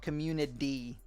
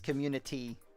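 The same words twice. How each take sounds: First: The middle consonant is a soft D-like flap. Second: The middle consonant is a clear, crisp T. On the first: The speaker calls it wrong. "It's not a D. It's not community" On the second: The speaker calls it right. "There's a T in community"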